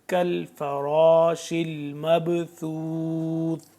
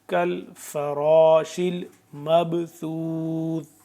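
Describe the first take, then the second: No difference in how they are said.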